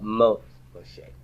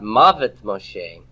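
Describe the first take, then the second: First: The first word has one syllable. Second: The first word has two syllables. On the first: The speaker calls it right. "but Moth Moshe" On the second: The speaker calls it wrong. "not Mavet Moshe"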